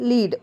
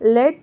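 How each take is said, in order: First: The vowel is long, like in 'seed'. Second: The vowel is short, like in 'bed'. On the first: It means to guide or head something. "Second ಒನ್ನನ್ನು ... ಲೀಡ್ ಅಂತ pronounce ಮಾಡಿದ್ದೀನಿ" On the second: It names the metal. "ನಾನು ಲೆಡ್ ಅಂತ pronounce ಮಾಡಿದ್ದೀನಿ"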